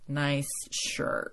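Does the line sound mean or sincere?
mean. It sounds mean and sarcastic.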